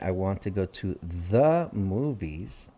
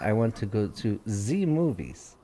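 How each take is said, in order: First: The word 'the' begins with a th sound. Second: The word 'the' begins with a z sound. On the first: The speaker calls it right. "instead of saying" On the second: The speaker calls it wrong. "typical Russian accent says"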